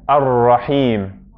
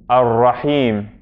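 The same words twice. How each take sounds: No difference in how they are said.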